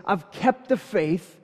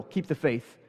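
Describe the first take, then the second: First: Slow solemn quote. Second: Mocking literal take. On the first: Retold or imitated. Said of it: "he says". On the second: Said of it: "take that way too literal".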